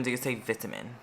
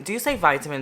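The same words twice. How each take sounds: First: "vitamin" with first syllable like "vit" in "bit"; short-I pronunciation. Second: "vitamin" with first syllable like "vie"; long-I pronunciation. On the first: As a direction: say "vitamin" the British way, VIT-uh-min. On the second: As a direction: say "vitamin" the American way, VY-tuh-min. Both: Shown as a demonstration.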